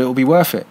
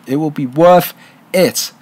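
First: Said in the usual way. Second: "It will be worth it" spaced out, with weight on "worth"; emphatic repeat. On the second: Real, not acted. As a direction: lean on "worth", then set "it" apart after a pause.

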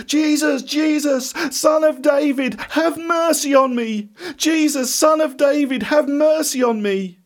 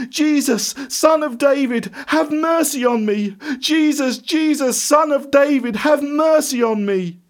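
First: High, insistent pleading cry; even louder shout. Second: High-pitched, sustained pleading shout; loud shout. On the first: Blind beggar refusing to give up, shouting to Jesus. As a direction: shout desperately for mercy, pitched right up. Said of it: "he called out even louder". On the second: Blind beggar begging Jesus for mercy, shouting. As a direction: cry out to be heard over a crowd. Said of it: "in a loud voice he shouted". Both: A narrator's reading.

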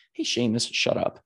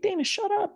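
First: Said in the usual way. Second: Much higher, mocking inner voice snapping shut up; the nagging voice in her head, pitched way up; inner critic voice. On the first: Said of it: "It's actually saying". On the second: Inner critic telling Dana to shut up, high mocking voice. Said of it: "it's not me telling me to shut up".

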